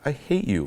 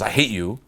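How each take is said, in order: First: It is said lightly and casually. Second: It is said with heavy, pushed force. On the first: It is a natural joke that feels true to the speaker. "I'm still saying it congruently" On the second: It is forced beyond what the speaker really feels. "it's like massive push"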